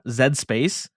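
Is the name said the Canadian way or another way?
Canadian. The name is said the Canadian way.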